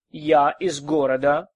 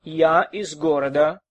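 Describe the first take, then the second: No difference in how they are said.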